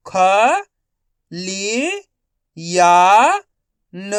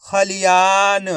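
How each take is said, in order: First: ख, लि, या, न as separate sounds; syllable by syllable. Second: खलियान joined up and slow; खलियान in one slow, unbroken piece; blended whole word. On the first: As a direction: sound out खलियान one syllable at a time. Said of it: "एक अक्षर का उच्चारण करके". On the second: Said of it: "तो मिलके बन जाएगा". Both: Shown as a demonstration.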